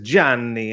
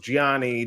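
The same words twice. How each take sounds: First: The name is said with Italian sounds. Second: The name is said with English-style sounds. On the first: This is how people say it in Italy. "I go to Italy and it's a" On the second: This is how people said it during childhood. "growing up was"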